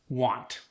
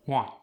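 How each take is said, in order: First: Said in the usual way. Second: "Want" with the final T dropped; Khmer-style "Want", no closing T; dropped final consonant. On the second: Shown as a demonstration. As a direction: cut the T off "Want". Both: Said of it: "when consonants are dropped".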